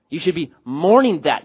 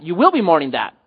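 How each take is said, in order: First: "mourning" lifted and leaned on; stress on mourning. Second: "will" pitched up and punched; stress on will. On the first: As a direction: press on the word "mourning". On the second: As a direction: hit "will" hard, then fall away. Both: Real, not acted. Corrects himself from should to will.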